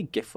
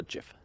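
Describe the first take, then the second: First: "gif" said with a hard g, as in gift; hard-g pronunciation. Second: "gif" said with a soft g, like "jif"; soft-g pronunciation. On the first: Asking a friend which way they say it, hard-g "gif". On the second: Asking a friend which way they say it, soft-g "gif". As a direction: say "gif" starting with a j sound. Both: Shown as a demonstration. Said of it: "Do you say gif or gif".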